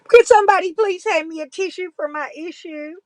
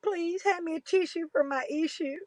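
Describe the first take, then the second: First: Loud, high fake-sobbing whine; mock crying plea. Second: High but softer whimpering whine; mock crying plea. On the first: Vlogger begging viewers for a tissue, loud mock wail. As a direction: beg for a tissue like a sulky child. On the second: Vlogger repeating the tissue plea, softer mock whimper. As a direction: let the fake sob shrink to a pitiful whimper. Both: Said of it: "I'm cry bullying".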